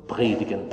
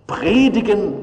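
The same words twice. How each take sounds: First: Dropped low and soft; quiet. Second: Predigen lifted high and stressed; emphatic. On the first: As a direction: let the word predigen sink away quietly, low and soft. Messenger's report ends the quote. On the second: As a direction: Predigen thrown out as the last straw. Preacher repeats the word indignantly. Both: Acted.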